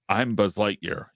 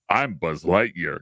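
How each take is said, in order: First: It is said in a flat, understated way. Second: It is said in a big, over-the-top way.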